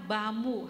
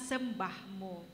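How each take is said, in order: First: The first syllable is dropped, sounding like bamu. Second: Every syllable is said clearly, sem-bah-mu. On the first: The speaker calls it wrong. "Jadi kedengarannya bamu" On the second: The speaker calls it right. "harusnya sembahmu"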